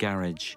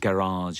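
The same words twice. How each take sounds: First: It is said the speaker's own British way. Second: It is said the local American way.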